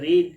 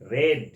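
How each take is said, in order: First: The vowel is a long ee sound. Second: The vowel is a short e sound. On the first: This is the present form. "V1টা হবে রিড" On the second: This is the past form. "V2 আর V3 same spelling, কিন্তু উচ্চারণটা প্রোনাউন্সিয়েশনটা কি হবে? রেড।"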